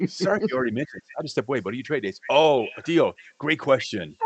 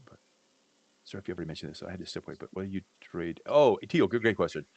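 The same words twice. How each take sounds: First: Quicker, higher replay of the same answer, acted up; hammed-up retake. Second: Said in the usual way. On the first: Shown as a demonstration. Cohost redoing his answer for the listener, hammed up. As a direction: redo the line like a cheerful second take. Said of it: "this time answer the question right". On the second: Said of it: "Let's do it over".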